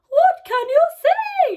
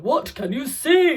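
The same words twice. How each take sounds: First: It is said in a high-pitched voice. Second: It is said in a very low voice.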